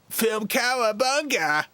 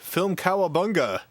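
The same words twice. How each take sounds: First: It is said in a Ninja Turtle voice. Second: It is said in his normal voice.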